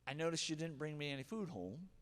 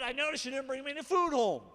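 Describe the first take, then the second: First: The tone is calm, gentle and open. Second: The tone is harsh, hostile and accusing. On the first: The speaker is inviting a conversation. The speaker calls it right. "the way this could go is, hey, ... Notice my tone of voice" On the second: The speaker is attacking the listener. The speaker calls it wrong. "This is how not to do it. ... The other one I went into attack mode"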